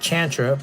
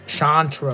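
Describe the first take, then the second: First: The name begins with a ch sound. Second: The name begins with a sh sound. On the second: The name is read as American in origin. "if you think of the origin being like an American name, then you'll probably read it Sh- Shantra"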